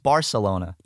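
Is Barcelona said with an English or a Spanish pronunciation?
English. It is said with an English-style pronunciation. This is how it should be said. The speaker calls it right. "Come on, Spaniards. it's Barcelona"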